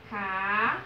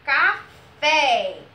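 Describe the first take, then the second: First: CAFÉ split by a long pause, CA... FÉ; syllable by syllable. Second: CAFÉ called out loud with FÉ held strong; loud CAFÉ, leaning hard on final FÉ; stress on FÉ. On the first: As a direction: hold each syllable of CAFÉ separately. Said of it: "Percebam que a sílabazinha mais forte". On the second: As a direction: punch the last syllable of CAFÉ. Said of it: "O fé foi pronunciado com mais força". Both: Shown as a demonstration.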